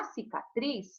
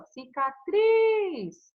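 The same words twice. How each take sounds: First: Said in the usual way. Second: "Cicatriz" with TRIZ stretched long, high and loud; teacher sounding out "Cicatriz", a long ringing stress on TRIZ; stressed final syllable. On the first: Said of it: "qual é a tônica?". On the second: Shown as a demonstration. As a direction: draw out and lift the last syllable of "Cicatriz". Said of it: "É o tris, ó".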